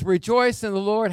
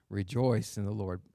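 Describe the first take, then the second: First: High, raised cry of REJOICE in the Lord; emphatic verse quote. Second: Low, softened "Rejoice in the Lord"; subdued verse repeat. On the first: Preacher quoting Paul's command to his church, high and emphatic. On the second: Preacher repeating Paul's command to his church, low and subdued. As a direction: bring the verse down low and soft. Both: Retold or imitated.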